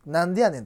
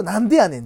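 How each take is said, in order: First: Osaka dialect. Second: Osaka dialect retort. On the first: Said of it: "大阪弁？". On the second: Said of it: "ツッコミって言うと". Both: Shown as a demonstration.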